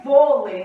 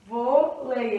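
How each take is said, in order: First: VÔLEI with a loud, stretched VÔ; vôlei in one word, strong first syllable; stress on first syllable. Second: VÔLEI split into VÔ, pause, LEI; vôlei slowly broken before LEI; syllable by syllable. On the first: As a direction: punch the VÔ in vôlei. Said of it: "A sílaba tônica é o vô". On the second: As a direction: separate the two syllables of vôlei. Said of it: "aqui a gente tem um ditongo". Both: Shown as a demonstration.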